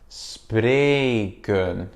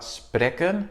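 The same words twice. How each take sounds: First: The first vowel is long. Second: The first vowel is short. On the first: The speaker calls it right. "on le prononce de manière longue" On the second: The speaker calls it wrong. "c'est pas spreken, non"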